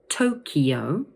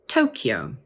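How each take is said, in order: First: The word is said with three syllables. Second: The word is said with two syllables. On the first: "three syllables and be pronounced Tokyo" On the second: "or two syllables"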